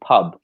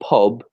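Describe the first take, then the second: First: The vowel sounds lighter and higher. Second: The vowel sounds low and deep. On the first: "a bit lighter, a bit higher up in in the voice" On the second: "a low sound, a very di- uh, deep sound"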